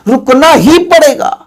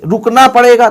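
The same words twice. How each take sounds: First: ही hit higher and slower; slow, insistent रुकना ही पड़ेगा with ही raised; stress on ही. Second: Said in the usual way. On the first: Shown as a demonstration. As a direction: punch the word ही to insist. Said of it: "अतिरिक्त है". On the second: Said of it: "तो चलो normal है".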